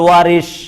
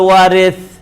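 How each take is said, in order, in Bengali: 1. শেষ ব্যঞ্জনটি 'sh' ধ্বনি। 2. শেষ ব্যঞ্জনটি 'th' ধ্বনি। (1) "বাংলা বলে ওয়ারিস তালব্য স দিয়ে" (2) "আরবিতে বলে ওয়ারিস সা দিয়ে"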